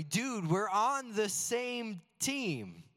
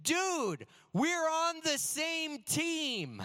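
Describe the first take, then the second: First: The same line said slowly in the usual voice; reflective repeat. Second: Put-on high, slow, shocked plea from a hurt kid; stunned teammate. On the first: Shown as a demonstration. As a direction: let it sink in, slow and sincere. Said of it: "But that stuck with me". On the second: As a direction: say it like you can't believe he hit you. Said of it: "He said this".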